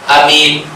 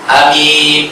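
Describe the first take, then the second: The two takes are said the same way.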